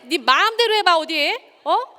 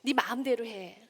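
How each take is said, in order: First: Loud, high menacing challenge; menacing dare. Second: Said in the usual way. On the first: Shown as a demonstration. Lecturer showing how the same words become a loud menacing dare. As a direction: dare them to try it, full of threat. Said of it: "굉장히 힘이 다른 말이죠". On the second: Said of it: "말만 볼 때는 괜찮은 말도 있어요".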